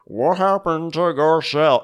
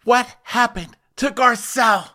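First: Slurred, slow mock Tom Brokaw accent. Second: High-pitched mock heartbreak; Harry Hamlin, sad. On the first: Harry Hamlin asking about Garcelle, Tom Brokaw accent. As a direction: slur it slowly in a bad Brokaw accent. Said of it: "in his Tom Brokaw accent". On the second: Sad Harry Hamlin asking about Garcelle, mock heartbroken. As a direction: ask it in a high, overdone lament. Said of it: "Harry Hamlin was so sad".

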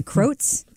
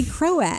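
First: Croats as one syllable, rhymes with oats; imitating Croats mangled into one syllable; mispronounced Croats. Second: Croats as CRO-ats, two syllables; demonstrating Croats as two syllables; correct two-syllable Croats. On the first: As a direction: say Croats like "crotes". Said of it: "a more egregious mispronunciation". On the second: Shown as a demonstration. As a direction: say Croats with a separate second vowel, CRO-ats. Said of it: "He meant to say Croats".

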